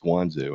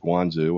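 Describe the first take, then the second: First: It is said with an English-sounding pronunciation. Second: It is said imitating a Chinese pronunciation. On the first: "in English sounding" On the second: "in Chinese they will pronounce it as"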